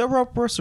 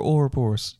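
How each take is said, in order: First: OUROBOROS said "uh-ROB-uh-rus"; first pronunciation of Ouroboros. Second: OUROBOROS said "or-uh-BORE-us"; second pronunciation of Ouroboros. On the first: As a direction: stress the second syllable of Ouroboros, like "rob". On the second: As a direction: stress the third syllable of Ouroboros, like "bore". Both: Shown as a demonstration. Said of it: "Is it Ouroboros or Ouroboros?".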